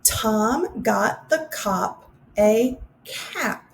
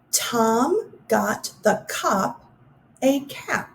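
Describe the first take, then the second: First: Very slow, words spaced for hand-raising; slow answer reading. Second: Very slow, each word set apart; slow careful reading. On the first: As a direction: go through it slowly with answers. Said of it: "give you the correct answers". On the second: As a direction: read it slowly for the listeners. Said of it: "listen for the ah sound". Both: Shown as a demonstration.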